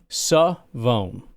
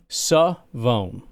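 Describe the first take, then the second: First: The name is said like Savone. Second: The name is said like Savone.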